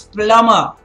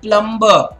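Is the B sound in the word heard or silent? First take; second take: silent; heard. First: The B sound is left silent. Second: The B sound is clearly pronounced. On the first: The speaker calls it right. "The B is silent. It's plumber" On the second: The speaker calls it wrong. "Not plumber"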